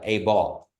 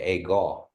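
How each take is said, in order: First: It is said the Carnegie way, with b. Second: It is said the Anadarko way, with g.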